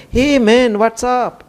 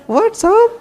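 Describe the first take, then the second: First: Lightly voiced casual Detroit greeting, a bit higher; imitating a Detroit man's greeting. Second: Squeaky, much higher and louder "What's up?"; startled echo. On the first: Tall man greeting the monk at immigration, casual and breezy. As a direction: toss it off like a cool stranger at the airport. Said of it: "that's how he talked to me". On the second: Retold or imitated. Monk echoing the stranger's greeting, baffled and squeaky. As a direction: echo it back in baffled surprise.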